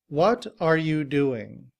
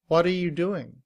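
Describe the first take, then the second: First: Each word is said fully and carefully. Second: 'What are' blends into a quick 'whada'. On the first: "In citation form" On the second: "In reduced form, are is simply written as a schwa"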